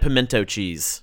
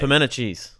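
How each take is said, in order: First: Each sound of the word is pronounced separately. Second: The sounds of the word run together, reduced. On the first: The speaker calls it wrong. "You said pimento cheese" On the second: The speaker calls it right. "We run all of our letters together"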